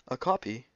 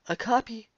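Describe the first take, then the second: First: It is said in the reader's ordinary voice. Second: It is said in a put-on character voice.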